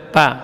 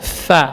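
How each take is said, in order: First: The consonant is a p with closed lips. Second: The consonant is an f with flowing air. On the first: The speaker calls it wrong. "tidak boleh dibaca pa" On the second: The speaker calls it right. "tapi yang benar fa"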